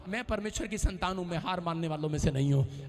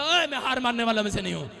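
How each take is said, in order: First: Said in the usual way. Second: Bold declaration. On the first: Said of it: "एक बात बोल रहा था". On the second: Shown as a demonstration. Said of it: "अपने पड़ोसी को बोलो".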